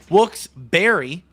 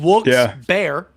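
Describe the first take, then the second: First: The second part sounds like the fruit berry. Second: The second part sounds like the animal bear. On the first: "like the fruit" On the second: "like the animal"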